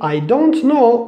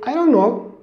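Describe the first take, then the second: First: The T in 'don't' is clearly pronounced. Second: The T in 'don't' is dropped. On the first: The speaker calls it wrong. "We don't say I don't know" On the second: The speaker calls it right. "we don't use this letter"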